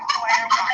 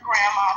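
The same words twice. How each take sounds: First: "grandma" said as "GLAM-ma"; "grandma" reshaped into glam-ma; playful pronunciation. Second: Said in the usual way. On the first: Shown as a demonstration. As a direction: turn "grandma" into "glamma", with an L and an M. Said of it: "but a grandma". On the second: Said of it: "not a grandma".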